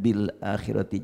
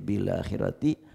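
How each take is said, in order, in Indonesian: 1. Hamzah sebelum 'akhirati' tetap diucapkan terpisah. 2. Huruf l langsung tersambung tanpa hamzah.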